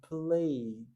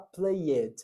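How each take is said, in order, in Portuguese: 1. O -ed não acrescenta nenhuma sílaba; o som para. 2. O -ed é pronunciado como uma sílaba separada. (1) "eu falo played" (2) "Eu não vou falar played"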